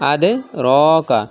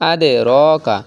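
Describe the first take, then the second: Both takes have the same delivery.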